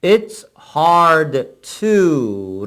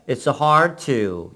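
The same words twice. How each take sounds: First: Said in the usual way. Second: "it's hard to" run together as one; "it's hard to" in connected American pronunciation, no gaps; American-style linking. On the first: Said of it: "연결이 된다는". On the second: Shown as a demonstration. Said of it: "미국식으로 발음하게 될 때".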